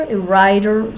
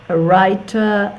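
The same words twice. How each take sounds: First: It is said in an American accent. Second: It is said in a British accent. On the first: "in American accent" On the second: "I made the pronunciation a British one"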